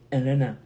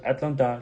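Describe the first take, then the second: First: Atlanta as "Ellenna", with no t's; local Atlanta pronunciation. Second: Said in the usual way. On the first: Shown as a demonstration. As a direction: drop both t's in Atlanta, said loud. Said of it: "je dis Atlanta". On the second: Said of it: "je n'ai pas dit Atlanta".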